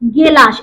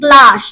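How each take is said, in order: First: A vowel is inserted between the first consonants. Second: The first two consonants are said together.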